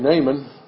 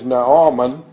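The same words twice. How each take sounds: First: The name is said in an anglicized form. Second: The name is said in its original form. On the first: This is the familiar English pronunciation. "That's our English way of saying it" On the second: This is the name's proper pronunciation. "The proper pronunciation of his name is"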